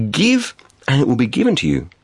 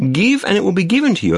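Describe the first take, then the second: First: Deliberate, with a pause after the first word; measured proclamation. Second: Higher, quicker, run together in one phrase; emphatic repeat. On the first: Preacher quoting Jesus's saying to listeners, measured proclamation. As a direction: let the first word stand alone. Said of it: "he said this". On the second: Preacher repeating Jesus's saying for listeners, brisk and emphatic. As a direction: repeat it briskly with a raised pitch. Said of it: "Just again". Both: Acted.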